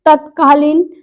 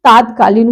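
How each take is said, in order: First: तत्कालीन with a short first a; short-vowel form. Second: तात्कालीन with a long first aa, pitched lower; corrected form. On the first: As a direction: keep the "tat" of तत्कालीन short. (तत्कालीन का "त" छोटा) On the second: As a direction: stretch the "taat" of तात्कालीन. (तात्कालीन का "ता" लंबा) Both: Shown as a demonstration. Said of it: "तात्कालीन हो जाएगा".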